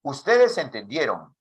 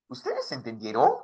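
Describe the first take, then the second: First: "Ustedes entendieron" as a statement, falling at the end; falling intonation. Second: "Ustedes entendieron" as a question, rising at the end; rising question intonation. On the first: Teacher contrasting intonations, "entendieron" falling at the end. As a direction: let "entendieron" drop like a statement. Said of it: "Ese es el uno". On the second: Teacher contrasting intonations, "entendieron" rising at the end. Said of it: "Qué le he cambiado ahí". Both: Shown as a demonstration.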